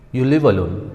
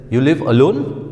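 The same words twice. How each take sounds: First: "alone" without a rise, as a statement; statement intonation. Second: "alone" sweeping up at the end, as a question; question intonation. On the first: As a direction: inform them, letting "alone" settle instead of lifting. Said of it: "I'm trying to tell that person". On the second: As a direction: inquire with a clear rise on "alone". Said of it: "I'm trying to inquire or ask a question". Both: Shown as a demonstration.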